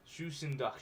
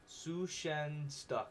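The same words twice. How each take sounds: First: Said in the usual way. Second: Sushendach very slow, syllable by syllable; careful slow pronunciation. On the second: Shown as a demonstration. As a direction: spell out Sushendach slowly, su-shen-dach.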